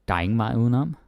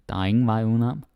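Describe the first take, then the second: The two takes are said the same way.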